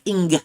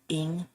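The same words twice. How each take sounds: First: A hard G sound is heard at the end. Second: It ends without any G sound. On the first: "They were pronouncing the G" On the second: "like that short ing"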